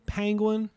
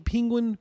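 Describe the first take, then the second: First: "Penguin" high, with open vowel, PANG-gwin; pronunciation demo of Penguin. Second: "Penguin" high, with short i, PING-gwin; pronunciation demo of Penguin. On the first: Answering friend's question on saying it, "Penguin" as PANG-gwin. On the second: Answering friend's question on saying it, "Penguin" as PING-gwin. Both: Shown as a demonstration. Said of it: "How do you say it?".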